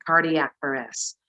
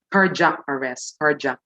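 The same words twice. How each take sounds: First: "cardiac" as CAR-dee-ak; "cardiac" with a clear d-ee, no j; standard pronunciation. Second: "cardiac" squeezed to CAR-jak; "cardiac" pronounced like carjack; Filipino-style pronunciation. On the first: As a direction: keep three clear syllables in "cardiac". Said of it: "supposedly you're gonna say". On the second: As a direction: say "cardiac" with a j in place of d-i. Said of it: "I always hear that from friends". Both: Shown as a demonstration.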